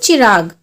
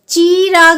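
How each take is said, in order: First: The first vowel is short and quick. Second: The first vowel is drawn out long. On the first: The speaker calls it right. "ई की मात्रा जो होती है वो हमारी जल्दी से खत्म हो जाती है" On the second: The speaker calls it wrong. "चिराग नहीं बोल रहे हम इसको"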